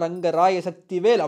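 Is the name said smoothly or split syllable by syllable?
split. The syllables are separated with small breaks. The line reaches its full dramatic impact. The speaker calls it right. "அப்படின்னா அதோட பீக்கே அப்படி இருக்கு"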